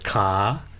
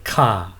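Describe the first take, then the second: First: The pitch rises from low to high. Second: The pitch falls from high to low. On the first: Leg. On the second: Servants.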